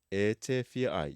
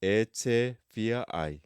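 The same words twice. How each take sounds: First: Said in the usual way. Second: Very slow, careful drill; slow practice model. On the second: Shown as a demonstration. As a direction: say it slowly for students to repeat. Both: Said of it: "you can practice these as exercises".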